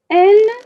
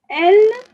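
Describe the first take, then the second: Both takes have the same delivery.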